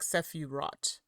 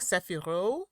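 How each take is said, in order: First: The word ends with a final T sound. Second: The word ends without a final T sound. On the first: "so would you say the T at the end?" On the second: "Or would you say like Sephiro?"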